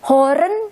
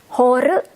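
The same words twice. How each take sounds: First: The final n sound is clearly pronounced. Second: The final n sound is left off.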